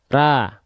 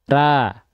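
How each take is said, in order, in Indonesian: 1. Mulutnya terbuka, bunyi vokalnya seperti a. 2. Mulutnya terbuka, bunyi vokalnya seperti a.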